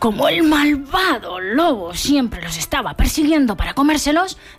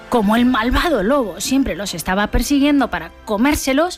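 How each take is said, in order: First: 'Malvado' is said in a scary, menacing voice. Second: 'Malvado' is said plainly, without menace.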